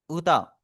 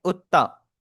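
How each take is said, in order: First: Said in the usual way. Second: उत्ता with a held, doubled t. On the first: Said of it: "उत्ता और उता". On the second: Shown as a demonstration. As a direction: stop on the t of उत्ता before releasing. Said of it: "नीचे वाला आपका लिखा हुआ है उत्ता". (उत्ता में त को दोहरा करके बोलें)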